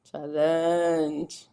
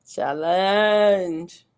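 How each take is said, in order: First: Said in the usual way. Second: Drawn-out challenge. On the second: Shown as a demonstration. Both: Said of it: "repeating the word".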